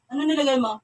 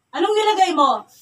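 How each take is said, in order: First: Said in the usual way. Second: Loud, high interrogating question; angry demand. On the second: Real, not acted. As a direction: press hard for an answer, voice raised. Interrogation, repeats question louder. (pasigaw na pagtatanong)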